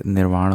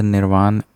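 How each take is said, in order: First: निर्वाण ending in retroflex ण; correct retroflex nasal. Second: निर्वाण ending in a dental "n"; uncorrected nasal. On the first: Teacher correcting, निर्वाण with retroflex final ण. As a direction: curl the tongue on the last sound of निर्वाण. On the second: Teacher showing the error, निर्वाण with plain final "n". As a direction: end निर्वाण on plain न, not retroflex ण. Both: Shown as a demonstration. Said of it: "यहाँ पे निर्वाण हो जाएगा".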